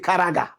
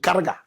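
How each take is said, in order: First: The name has three syllables, with a middle vowel. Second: The name has two syllables, with no middle vowel. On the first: The speaker calls it wrong. "You say Karaga" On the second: The speaker calls it right. "Correct pronunciation"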